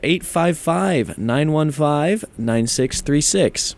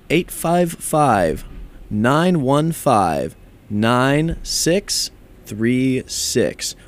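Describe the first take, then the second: First: The number is said at normal speed. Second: The number is said slowly.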